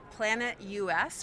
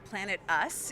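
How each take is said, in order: First: US is spoken as two separate letters. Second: US is spoken as the single word us. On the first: "it can be said in either way" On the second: "it can be said in either way"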